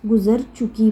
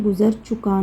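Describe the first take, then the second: First: "चुकी" ending in a long ee; correct feminine reading. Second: "चुका" ending in a long aa; incorrect masculine reading. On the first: Teacher showing the feminine verb reading, "चुकी" ending in ee. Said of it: "गुज़र चुकी पढ़ना है". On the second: Teacher showing the reading to avoid, "चुका" ending in aa. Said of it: "गुज़र चुका नहीं पढ़ना है". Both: Shown as a demonstration.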